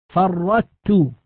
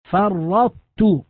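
First: فرطت with a plain light doubled ta, the emphasis dropped; wrong plain doubled ta. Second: فرطت very slow, a doubled ta that keeps the heavy, emphatic ta colour; correct partial assimilation. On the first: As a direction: say فرطت as the error, a thin ta with no heaviness. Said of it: "هكذا بتاء مشددة، هذا النطق خطأ". (النطق الخاطئ فرطت بتاء مشددة خفيفة) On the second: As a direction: recite فرطت slowly with the tta's emphasis still heard. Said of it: "فننطق بتاء مشددة ويبقى أثر الاستعلاء". (فرطت بتاء مشددة مع بقاء الاستعلاء) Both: Shown as a demonstration.

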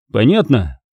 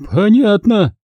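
First: Said in the usual way. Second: High-pitched, submissive woman; hasty agreement. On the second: A narrator's reading. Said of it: "поспешно согласилась санитарка".

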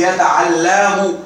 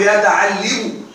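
First: يتعلم said yataʕallamu with fatha on the lam; يتعلم with a clear open a before the last letter, yataʕallamu; correct form. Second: يتعلم said yataʕallimu with kasra on the lam; wrong Arabic: يتعلم بكسر اللام; wrong form on purpose. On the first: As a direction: correct Arabic: يتعلم بفتح اللام. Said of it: "إذا نقول يتعلم". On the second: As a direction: mistaken يتعلم with an i sound before the last letter, yataʕallimu. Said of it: "لا نقول يتعلم". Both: Shown as a demonstration.

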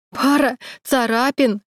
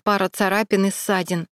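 First: Slow, higher sob of disbelief; sobbing. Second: Said in the usual way. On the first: A narrator's reading. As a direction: throw his words back through tears. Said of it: "прорыдала Саша". (сквозь рыдания, медленно и выше)

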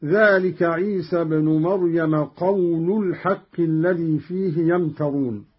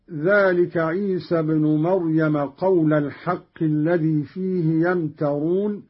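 First: قول said as "qawlu", ending in u; damma on lam. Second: Said in the usual way. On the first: Shown as a demonstration. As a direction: round the end of قول into الحق, qawlul-haqq. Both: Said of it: "برفع اللام من قول".

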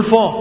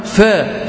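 First: فا thick and backed, "faw"; wrong heavy fa. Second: فا thin and fronted, "fæ"; light fa. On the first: Retold or imitated. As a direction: imitate the common heavy فا. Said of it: "لكن هي مش فا". (فا مفخمة خطأً) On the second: Shown as a demonstration. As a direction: demonstrate فا without heaviness. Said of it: "هي اسمها". (فا مرققة)

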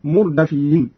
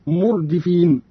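First: مردفين said murdafīn; open dāl. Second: Said in the usual way. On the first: Shown as a demonstration. Teacher demonstrating Qalun's reading, مردفين as murdafīn. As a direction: put an a after d in مردفين. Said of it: "قرأ قالون بفتح الدال اسم مفعول هكذا". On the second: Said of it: "قرأ قالون بفتح الدال".

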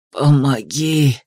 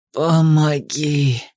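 First: Low, drawn-out croaked plea; hoarse croak. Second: Very slow, low croaked plea; madman's croak. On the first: Madman begging a passer-by for help, hoarse croak. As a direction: croak it out slowly, well below your voice. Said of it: "прохрипел мужчина". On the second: Madman repeating his plea for help, drawn-out croak. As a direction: stretch the plea out, low and hoarse. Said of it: "повторил безумец". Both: A narrator's reading.

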